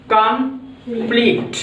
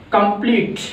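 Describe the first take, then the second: First: complete slowly split as "कम - pleat"; broken into syllables. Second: Said in the usual way. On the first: Shown as a demonstration. Teacher showing two syllables in complete, broken into syllables. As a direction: say complete in two drawn-out beats, pausing before pleat. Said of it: "यानी दो बार में बोला है". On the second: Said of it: "अब इसको बोलने का प्रयास करिए".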